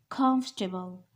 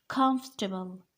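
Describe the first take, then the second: Both takes have the same delivery.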